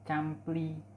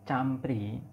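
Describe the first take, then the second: First: The middle consonant is an L sound. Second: The middle consonant is an R sound. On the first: "mereka mengucapkannya dengan campli. ... Mengganti bunyi R dengan bunyi L" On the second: "ada bunyi yang misalnya campri"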